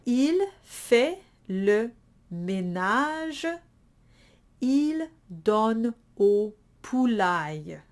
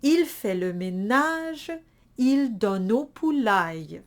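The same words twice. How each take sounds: First: Donne au kept apart, not linked; no elision. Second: Donne au run together as donno; with elision. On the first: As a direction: donne au said as separate words. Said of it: "I forgot to elide them". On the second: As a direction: link donne au smoothly. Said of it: "going to repeat that". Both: Shown as a demonstration.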